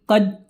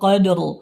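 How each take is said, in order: First: The r sound is dropped after the d. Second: The r sound is heard after the d. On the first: The speaker calls it wrong. "dia membaca dalnya saja, ro-nya dihilangkan" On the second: The speaker calls it right. "ro-nya tetap terdengar ya"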